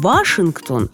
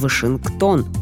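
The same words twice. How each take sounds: First: The stress is on the first syllable. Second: The stress is on the last syllable. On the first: The speaker calls it wrong. "путешествовать вы будете не в Вашингтон" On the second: The speaker calls it right. "а в Вашингтон"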